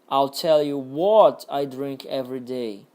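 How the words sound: The stress falls on the word what. "Agora no what"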